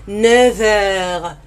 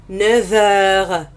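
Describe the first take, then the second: Both takes have the same delivery.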